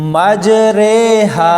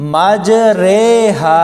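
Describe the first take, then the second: First: The second vowel is an 'ay' sound. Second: The second vowel is an 'ay' sound.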